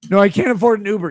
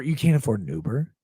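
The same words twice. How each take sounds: First: Fast, louder whiny mock reply; mocking John's excuse, high and fast; mock whine. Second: Answering the fan with mock disbelief; incredulous. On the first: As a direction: rattle off the excuse like a pathetic fan. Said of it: "Texting me this". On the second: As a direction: lower disbelieving question, can't rising. Incredulous reply in mocked dialogue.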